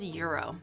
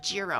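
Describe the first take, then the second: First: The word begins with a y sound. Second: The word begins with a j sound. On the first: The speaker calls it right. "I think it's Euro" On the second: The speaker calls it wrong. "not gyro. I used to say gyro"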